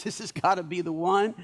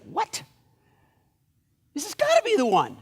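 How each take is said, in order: First: Said in the usual way. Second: Higher-pitched, acted disbelief; incredulous protest. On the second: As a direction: protest in mock astonishment. Samuel reacts to God's refusal.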